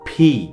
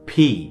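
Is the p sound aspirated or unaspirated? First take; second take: aspirated; aspirated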